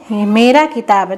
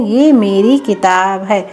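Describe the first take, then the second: First: Said in the usual way. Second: Slow, careful model sentence; slow correct model. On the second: Shown as a demonstration. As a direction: say the right form clearly. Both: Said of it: "तो क्या बोलते हैं?".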